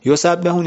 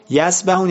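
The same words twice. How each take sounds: First: یسبحون said yusabbihun, doubled b held; یسبحون with a lengthened bb, praise sense; with tashdid. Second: یسبحون said yasbahun, single short b; light single b in یسبحون; یسبحون as yasbahun, swimming sense; without tashdid. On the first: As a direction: stress the geminate b in یسبحون. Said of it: "یسبحون بهش تشدید داره". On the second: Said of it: "یسبحون رو با یسبحون قاطی نکن". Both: Shown as a demonstration.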